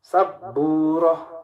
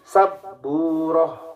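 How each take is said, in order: Both takes have the same delivery.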